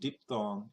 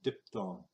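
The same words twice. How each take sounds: First: The first vowel sounds like 'ee'. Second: The first vowel sounds like 'eye'. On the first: "instead of saying" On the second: "because it would be colored"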